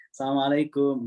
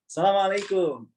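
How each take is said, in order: First: Said in the usual way. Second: Assalamualaikum said higher and firm, each syllable pushed out. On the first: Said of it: "jadi nggak, nggak gini sih". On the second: Shown as a demonstration. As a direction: hit Assalamualaikum hard, like a Saudi local. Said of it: "keras aja".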